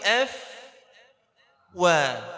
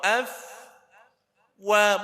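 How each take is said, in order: First: The fa sound is made with unrounded lips. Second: The fa sound is made with rounded lips. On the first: The speaker calls it right. "bukan, tapi f wa" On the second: The speaker calls it wrong. "Fa-nya itu jadi ikut waw"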